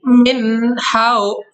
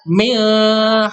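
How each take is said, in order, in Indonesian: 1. Bunyi n diucapkan dengan jelas, tanpa pengaruh sengau. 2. Bunyi n menyatu dengan bunyi berikutnya. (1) "dibacanya tidak mendengung, dibacanya jelas" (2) "nggak bisa milha, nggak bisa gitu"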